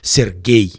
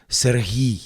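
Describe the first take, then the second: First: The middle consonant is a hard g. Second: The middle consonant is a soft h. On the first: This is the Russian form of the name. "the Russian pronunciation" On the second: This is the Ukrainian form of the name. "in Ukraine we have a softer hair"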